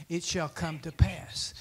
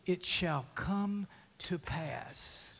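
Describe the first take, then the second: First: Said in the usual way. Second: Slow whispered promise. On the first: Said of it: "He said it three times". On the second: Shown as a demonstration. A preacher whispering God's promise to the church. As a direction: breathe it out slowly, no voice. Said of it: "So what has he spoken to you?".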